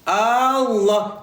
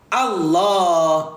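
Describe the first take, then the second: First: The first vowel is drawn out long. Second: The first vowel is kept short. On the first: It turns into a question: is God the greatest? The speaker calls it wrong. "kalau panjangkan A ni" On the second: It is the plain statement that God is the greatest. The speaker calls it right. "Yang betulnya awak tidak boleh panjangkan A"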